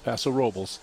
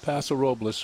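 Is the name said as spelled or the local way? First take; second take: local way; as spelled. First: The name is said the local way. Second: The name is said as it is spelled. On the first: The speaker calls it right. "It's Paso Robles" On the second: The speaker calls it wrong. "It's not Paso Robles, folks"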